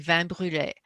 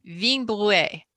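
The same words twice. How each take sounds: First: "vin brûlé" said the French way, nasal vin and French r in brûlé; French-style wrong pronunciation. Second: "vin brûlé" said the Italian way, careful and a little higher; proper Italian pronunciation. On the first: Author shows how she mangles the Italian word, French-style. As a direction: read "vin brûlé" as if it were French, the habitual mistake. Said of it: "if I look at it and I wanna pronounce it in French". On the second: Author shows the proper Italian way, carefully. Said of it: "you're supposed to say it". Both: Shown as a demonstration.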